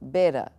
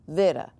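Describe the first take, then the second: First: The word begins with a plain B sound. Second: The word begins with a V sound. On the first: "you will see beta" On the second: "this word might be pronounced like vera"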